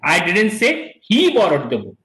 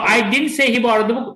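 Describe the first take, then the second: First: The word he carries the main stress. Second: The word say carries the main stress. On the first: Somebody else borrowed the book. "I must have said that somebody else borrowed the book" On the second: It may have been written or gestured, not spoken. "When he's stressing the word say"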